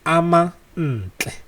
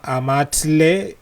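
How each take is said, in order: First: It is said with an n before tle. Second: It is said without an n before tle. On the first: This is the name's real pronunciation. The speaker calls it right. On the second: This is a mistaken way to say the name. The speaker calls it wrong. "It's it's not"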